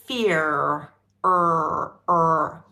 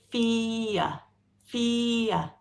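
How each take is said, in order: First: Fear with a strong rolled-in American r, er drawn out; American-style fear, r pronounced; American accent. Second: Fear said slowly with no r, ending in a vowel; British non-rhotic fear; British pronunciation. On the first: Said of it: "in American English, one would say". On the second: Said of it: "We say". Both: Shown as a demonstration.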